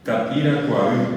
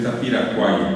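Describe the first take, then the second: First: The name ends with a full 'avi' syllable. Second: The name ends in a shortened 'ay' sound. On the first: This is the full original form of the name. "bien pronunciado ... es Tapiracuaví" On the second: This is how people usually say it. "la gente normalmente dice Tapiracuay"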